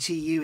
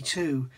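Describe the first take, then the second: First: Tu is spelled out as two separate letters. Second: Tu is said as one single syllable. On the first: The speaker calls it wrong. "We say TU" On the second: The speaker calls it right. "it's actually 2"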